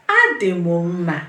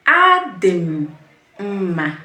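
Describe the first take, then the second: First: Said in the usual way. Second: "Adị m mma" slow, pausing before "mma"; slow broken-up model. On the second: Shown as a demonstration. Teacher models the reply for beginners, "Adị m mma" slow and split. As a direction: stretch "Adị m", pause, then "mma". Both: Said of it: "Say it with me".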